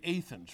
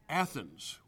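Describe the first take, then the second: First: Athens is said in a local regional pronunciation. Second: Athens is said in a general pronunciation.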